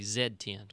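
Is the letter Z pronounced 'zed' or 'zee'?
zed. The letter is said the British way, 'zed'.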